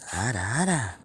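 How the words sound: It is said in a put-on girl's voice.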